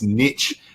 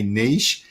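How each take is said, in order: First: Niche is said the American way, like 'nitch'. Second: Niche is said the Australian way, like 'neesh'.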